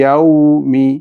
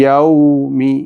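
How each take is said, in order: Both takes have the same delivery.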